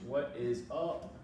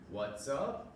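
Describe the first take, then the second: First: Every word is said fully and separately. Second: The first two words blend into one syllable.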